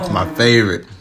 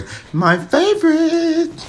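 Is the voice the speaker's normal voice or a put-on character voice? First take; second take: normal; character voice. First: It is said in the speaker's normal voice. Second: It is said in a put-on character voice.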